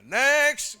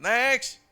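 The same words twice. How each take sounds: First: The word is said more loudly. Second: The word is said at normal loudness.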